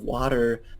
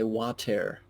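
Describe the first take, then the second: First: The word has a reduced, natural unstressed vowel. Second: The word has a fully pronounced, over-enunciated vowel. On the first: This is how the word is normally said in speech. "instead of water" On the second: This is how the word would be spelled without a schwa letter. "as if it was over pronounced"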